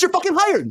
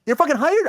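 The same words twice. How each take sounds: First: Laughing approval. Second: Disbelieving question rising at the end; incredulous echo. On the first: Retold or imitated. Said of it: "the girl laughs and says". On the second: Real, not acted. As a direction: repeat it as if you can't believe it. Echoes the quote in disbelief.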